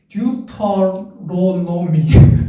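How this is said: It sounds Korean-style, with every syllable fully pronounced. "우리는 이제 콩글리시 배웁시다"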